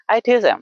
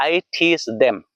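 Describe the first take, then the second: First: I teach them as quick teach-em; smooth teach-em, no th; fluent natural. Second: I teach them with a full them; Indian English. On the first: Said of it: "fluently, naturally बोलना है". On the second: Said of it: "Indian English है ना". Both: Shown as a demonstration.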